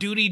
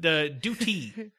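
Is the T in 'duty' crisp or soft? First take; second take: soft; crisp. First: The T in the middle is soft and flapped. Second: The T in the middle is crisp and over-enunciated. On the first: The speaker calls it wrong. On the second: The speaker calls it right. "As I over-enunciate my T's"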